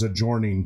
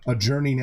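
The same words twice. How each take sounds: First: The vowel is changed to rhyme with forming. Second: The vowel does not rhyme with forming.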